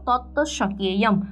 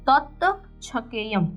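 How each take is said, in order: First: The second word begins with an 'sh' sound. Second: The second word begins with a 'ch' sound. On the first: The speaker calls it right. "છ બોલાતો જ નથી" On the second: The speaker calls it wrong. "પણ એ કઈ રીતે બોલાય?"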